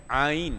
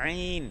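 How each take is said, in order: First: The sound is made without the nose. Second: The sound is made through the nose. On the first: The speaker calls it right. "Dia ain" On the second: The speaker calls it wrong. "kita silap kita kata ain. Ain kita main hidung"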